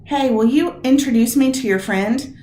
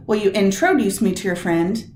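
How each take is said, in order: First: "you" leaned on, then a rising question; casual question, weight on "you"; stress on "you". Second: "introduce" hit on its last syllable, intro-DUCE, rising; plain question, "introduce" stressed. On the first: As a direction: friendly ask with the weight on "you". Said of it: "Next word". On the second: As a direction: put the weight on "introduce". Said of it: "Which is it". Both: Shown as a demonstration.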